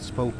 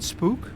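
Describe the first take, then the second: First: The word has a Dutch pronunciation. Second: The word has an English pronunciation. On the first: "pronounced as Dutch" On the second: "like the English word spook"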